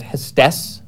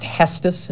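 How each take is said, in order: First: Hestes with the stress at the end, hes-TES; stress on second syllable. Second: Hestus with the first syllable stressed, HES-tus. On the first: Showing the wrong way to say the palace, stress on TES in Hestes. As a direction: hit the last syllable of Hestes. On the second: Explaining how the palace is pronounced, stress on HES in Hestus. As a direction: punch HES in Hestus, light second syllable. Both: Shown as a demonstration. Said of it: "it's just where you put the stress".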